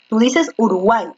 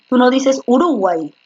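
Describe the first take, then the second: First: Said in the usual way. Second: Uruguay with the stress moved to the middle syllable, RU; misplaced stress. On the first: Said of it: "la fuerza de voz está en la última". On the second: Shown as a demonstration. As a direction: demonstrate a wrong stress, uRUguay instead of uruGUAY.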